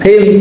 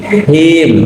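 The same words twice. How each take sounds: First: The h is said without audible breath. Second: The h is said with audible breath. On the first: The speaker calls it wrong. "jadi bukan him" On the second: The speaker calls it right. "diucapannya harus dengan nafas"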